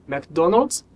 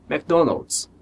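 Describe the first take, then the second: Both takes have the same delivery.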